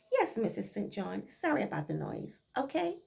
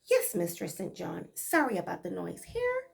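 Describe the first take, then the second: First: Said in the usual way. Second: Light Bajan dialect reply; a hint of Barbados speech, dutiful; Bajan accent. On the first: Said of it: "In plain English". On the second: Maid answering her mistress in Bajan dialect. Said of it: "this is Bajan dialect".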